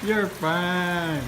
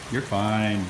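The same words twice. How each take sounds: First: Higher sing-song "You're fine." cooed to the dog; higher reassuring coo. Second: Said in the usual way. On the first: Real, not acted.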